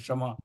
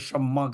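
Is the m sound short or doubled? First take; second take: short; doubled. First: The m is short, with a vowel after it. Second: The m is held long and doubled. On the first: It follows the same pattern as 'qamar'. "कमर के वजन पे बोल देते हैं" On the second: It follows the same pattern as 'sar'. "सर के वजन पर शम्मा कहते हैं, मीम पर तशदीद लगा के"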